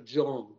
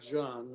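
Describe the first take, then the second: First: The name is said with an English pronunciation. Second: The name is said with a Russian pronunciation. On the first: The speaker calls it right. "по-английски произносится Джон" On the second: The speaker calls it wrong. "по-русски говорят Джоан, но по-английски так не говорят"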